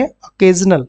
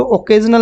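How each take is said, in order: First: "अकेजनल" opening on a short schwa; correct pronunciation. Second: "ओकेजनल" opening on a full O; wrong pronunciation. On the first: Teacher correcting students' reading, "अकेजनल" with an initial "uh". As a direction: say "अकेजनल" starting "uh-KAY". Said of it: "इसको क्या पढ़ेंगे". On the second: Teacher showing students the reading to avoid, "ओकेजनल" mispronounced with "oh". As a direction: say "ओकेजनल" with an initial "oh" sound. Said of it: "ओकेजनल नहीं पढ़ेंगे". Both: Shown as a demonstration.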